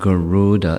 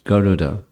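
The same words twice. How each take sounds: First: The second vowel is drawn out long. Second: The second vowel is kept short. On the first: The speaker calls it wrong. "There's no elongation of the second vowel. It's not Garuda" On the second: The speaker calls it right. "it's Garuda"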